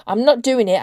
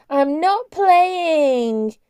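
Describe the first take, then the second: First: Clipped angry refusal, a touch louder, hit not; hard hacking gabble. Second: Put-on very high, very slow sneering child's whine; mock her sister like a sulky toddler; squeaky jeering voice. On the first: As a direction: spit out the refusal fast and hard. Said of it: "in a hard, hacking gabble". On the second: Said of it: "Cart put on a squeaky, jeering voice". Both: A narrator's reading.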